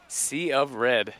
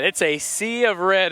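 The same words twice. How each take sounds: First: Will Keeps style. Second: Said in the usual way. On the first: Retold or imitated. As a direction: linger on it like a song hook. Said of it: "our friend Will Keeps would say". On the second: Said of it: "as they say, or as our friend Will Keeps would say".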